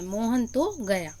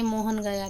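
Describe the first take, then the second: First: तो given a firm push; Mohan, at least, did go; teacher leaning on तो; stress on तो. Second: Said in the usual way. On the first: Shown as a demonstration. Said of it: "हम विशेष बल दे रहे हैं". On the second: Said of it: "लेकिन हम विशेष बल दे रहे हैं".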